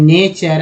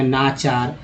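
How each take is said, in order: First: The first vowel is an ay sound. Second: The first vowel is a long aa sound. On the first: "ई लगाएंगे" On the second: "आ लगाएंगे"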